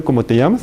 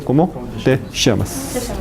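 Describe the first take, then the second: First: Llamas said as "amas", ll dropped; teacher demonstrates the wrong cómo te llamas to students, llamas with no ll sound, "amas". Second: Llamas with a soft "sh" ll, "shamas"; teacher models the right cómo te llamas for students, ll as "sh" in llamas; correct llamas. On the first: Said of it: "No se dice". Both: Shown as a demonstration.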